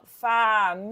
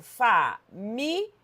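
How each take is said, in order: First: "família" drawn out as fa-mi-li-a; four separate syllables. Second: "família" split as fa, mi, lia; three separate syllables. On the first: Teacher showing the other separation, "família" in four slow beats. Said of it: "poderia ser separada assim". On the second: Teacher separating the word, "família" in three slow beats. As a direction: say "família" slowly with lia as one beat. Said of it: "eu separo família". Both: Shown as a demonstration.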